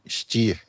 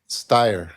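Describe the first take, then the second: First: The surname is said the German way. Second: The surname is said the family's usual way. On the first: The speaker calls it right. "É um nome alemão que deve ser dito Stier, pronunciado assim" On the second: The speaker calls it wrong. "Mas nós pronunciamos errado"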